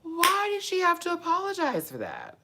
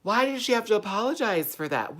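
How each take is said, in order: First: Squealed, very high incredulous question; extreme disbelief. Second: High-pitched disbelief; baffled and high; incredulous question. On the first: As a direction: wail it at the top of your range. Repeats question in escalating disbelief. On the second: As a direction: demand a reason, raised in pitch. Disbelief at the apology news. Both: Real, not acted.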